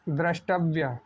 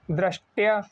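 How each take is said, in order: First: द्रष्टव्य with a clear व्य ending; careful teacherly द्रष्टव्य; corrected pronunciation. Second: Said in the usual way. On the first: Shown as a demonstration. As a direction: model द्रष्टव्य carefully, sounding the व. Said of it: "तो इसका सही क्या होगा?". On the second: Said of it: "लिखा गया है".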